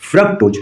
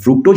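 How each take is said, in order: First: The first vowel sounds like a short 'uh'. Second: The first vowel sounds like a long 'oo'. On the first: The speaker calls it right. "फ्रक्टोज है" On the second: The speaker calls it wrong. "फ्रुक्टोज नहीं करते हैं"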